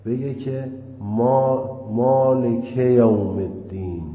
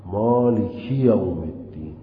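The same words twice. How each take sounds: First: Slow chanted مالک یوم الدین with مالک unlinked; wrong recitation. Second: مالکی یوم الدین with the linking i after مالکی; correct recitation. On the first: Teacher chanting the faulty reading to students, slow and sung. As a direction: intone مالک یوم الدین slowly, dropping the i after مالک. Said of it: "این غلطه". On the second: Teacher giving students the correct reading, measured recitation. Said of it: "باید بگه". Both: Shown as a demonstration.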